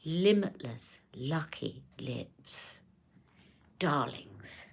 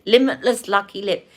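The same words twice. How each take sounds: First: Very slow, hushed, low impression; whispery luxury-brand purr, savouring every word; Charlotte. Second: Said in the usual way. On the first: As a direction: breathe it out slowly, trailing into a whisper. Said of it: "I can do it in her accent".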